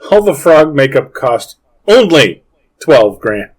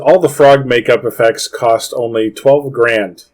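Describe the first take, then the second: First: It is said with marked, expressive inflection. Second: It is read out in a flat voice.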